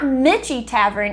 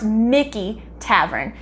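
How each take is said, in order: First: The name has a 'ch' sound in the middle. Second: The name has a 'k' sound in the middle. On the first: The speaker calls it wrong. "it's not Mitchie Tavern" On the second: The speaker calls it right. "It's actually pronounced Mickey Tavern"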